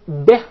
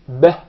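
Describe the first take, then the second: First: The vowel after b is a clear 'i'. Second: The vowel after b is an open 'e'. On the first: The speaker calls it right. "it is pronounced as kasra" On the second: The speaker calls it wrong. "It's commonly mispronounced to be beh"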